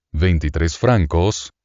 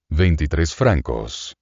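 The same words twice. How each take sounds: First: Slow, lifting to a questioning rise on francos; between wonder and question. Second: Amazed at the bill. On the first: Traveler repeating the innkeeper's bill, amazed and questioning. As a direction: repeat it half amazed, half asking. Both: A narrator's reading. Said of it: "el acento que separa la admiración de la interrogación".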